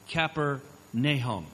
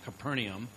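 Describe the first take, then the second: First: The ending is said as two syllables, 'Na-hum'. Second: The ending is run together as one syllable, 'naum'. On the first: The speaker calls it right. "It's Capernaum. Like the minor prophet Nahum" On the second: The speaker calls it wrong. "you're saying it wrong. It's not Capernaum"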